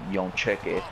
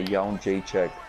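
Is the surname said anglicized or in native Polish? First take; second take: anglicized; native Polish. First: The surname sounds like a clipped English 'Yon Check'. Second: The surname is said with its full native sounds. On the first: The speaker calls it wrong. "in the words of uh Joe Rogan" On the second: The speaker calls it right. "I'm gonna pronounce it the right way"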